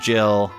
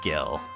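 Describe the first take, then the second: First: The word begins with a soft j sound. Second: The word begins with a hard g sound. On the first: "I do pronounce it Jill" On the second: "not Gil"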